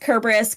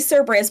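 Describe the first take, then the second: First: The name begins with a hard K sound. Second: The name begins with a soft S sound. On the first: The speaker calls it right. "there is no soft C sound in the Greek alphabet" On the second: The speaker calls it wrong. "people will say Cerberus, but that's not how it's pronounced"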